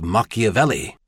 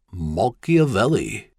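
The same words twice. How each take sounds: First: Said in the usual way. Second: Slowly sounding out an unfamiliar name; puzzled repeat, slow and deliberate; slow, careful. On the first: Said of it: "repeated the bizarre-sounding name slowly". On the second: A narrator's reading. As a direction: wrap the tongue carefully round each odd syllable. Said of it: "repeated the bizarre-sounding name slowly, wrapping his tongue carefully".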